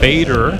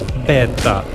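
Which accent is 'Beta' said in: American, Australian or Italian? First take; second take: American; Italian. First: The word is said in an American accent. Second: The word is said in an Italian accent. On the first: "for you Americans" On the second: "in the true Italian way"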